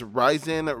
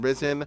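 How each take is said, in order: First: The first syllable rhymes with 'rise'. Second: The first syllable sounds like 'riz'. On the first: The speaker calls it right. "pronounced as Ryzen" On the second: The speaker calls it wrong. "rather than Risen"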